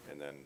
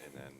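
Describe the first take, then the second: No difference in how they are said.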